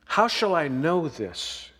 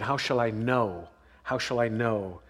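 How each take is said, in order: First: Said in the usual way. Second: Low, soft, searching repetition; pondering under the breath; quiet musing. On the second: Shown as a demonstration. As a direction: turn the question inward, much softer. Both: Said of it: "let me help you with that question".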